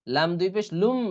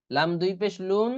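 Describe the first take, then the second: First: লুম closed on a hummed m, not n; merged lum. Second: Said in the usual way. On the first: Shown as a demonstration. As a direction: spell out লাম দুই পেশ, landing on লুম. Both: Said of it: "এখানে লুম হবে".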